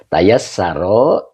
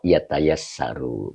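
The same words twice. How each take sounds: First: "Tayassaro" drawn out slowly, doubled s; slow, careful reading of "Tayassaro"; 1 slow pronunciation. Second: Said in the usual way. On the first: Shown as a demonstration. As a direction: spell out "Tayassaro" slowly, syllable by syllable. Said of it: "ya tayasaru".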